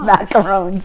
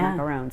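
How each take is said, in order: First: It is said with a French-style ending. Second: It is said with an English 'oo' vowel. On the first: The speaker calls it right. "The real Frenchy, the real French one" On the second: The speaker calls it wrong. "I never say it the right way"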